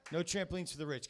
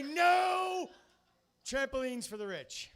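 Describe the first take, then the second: First: Said in the usual way. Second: Chanted, high, loud rally-cry yell; chanted slogan shout. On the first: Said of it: "just get on the fucking bandwagon". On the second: Retold or imitated. Host yelling a protest slogan to the crowd, loud chant. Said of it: "and I say".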